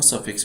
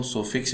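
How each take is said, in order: First: The first vowel sounds like 'uh'. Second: The first vowel sounds like 'o'. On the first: "और सफिक्स भी बोल देते हैं" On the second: "इसको हम सोफिक्स भी बोल देते हैं"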